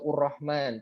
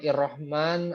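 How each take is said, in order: First: The word begins with the vowel u. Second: The word begins with the vowel i. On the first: "atau ur-Rahman" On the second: "bukan ir-Rahman"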